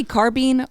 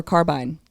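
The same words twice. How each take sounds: First: Carbine said CAR-been, long ee; carbeen pronunciation. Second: Carbine said CAR-bine, long i; carbyne pronunciation. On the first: Guest asking the group their habit, carbine as CAR-been. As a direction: say carbine to rhyme with bean. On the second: Guest asking the group their habit, carbine as CAR-bine. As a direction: say carbine to rhyme with line. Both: Shown as a demonstration. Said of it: "y'all say carbine or carbine".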